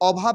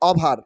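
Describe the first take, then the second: First: The word ends without an r sound. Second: The word ends with an audible r sound. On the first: The speaker calls it right. "আর will be silent হেয়ার" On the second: The speaker calls it wrong. "Not ওভার"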